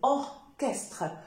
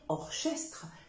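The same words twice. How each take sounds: First: The ch is said as a k sound. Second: The ch is not said as a k sound. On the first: The speaker calls it right. "c'est orchestre" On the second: The speaker calls it wrong. "Il ne faut pas dire orchestre"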